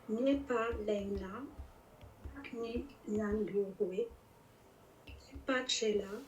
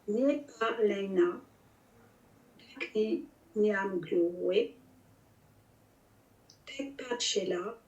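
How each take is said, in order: First: It is read at normal speed. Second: It is read more slowly.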